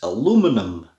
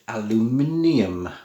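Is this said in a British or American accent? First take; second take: American; British. First: It is said in an American way. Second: It is said in a British way.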